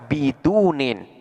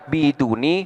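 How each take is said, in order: First: The word ends in i followed by n. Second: The word ends in a short i vowel. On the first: The word is fully cut off from a following word. "akan dibaca bidunin" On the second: The omitted following word is still understood. "boleh dibaca biduni"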